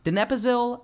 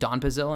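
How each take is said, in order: First: The word is said with four syllables. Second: The word is said with three syllables. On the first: The speaker calls it right. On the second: The speaker calls it wrong.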